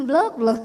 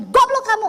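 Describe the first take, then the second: First: Gentle laughing scold. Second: Loud, high angry snap; angry insult. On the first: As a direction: say "blok" kindly, half laughing. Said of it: "Orang Solo itu marah begitu". (mengucapkan "blok, blok" sambil tertawa lembut) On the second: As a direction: call him stupid in a rage. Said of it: "goblokin orang dengan marah, nada tinggi". (membentak goblok dengan marah) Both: Shown as a demonstration.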